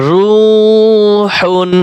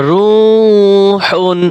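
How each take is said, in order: No difference in how they are said.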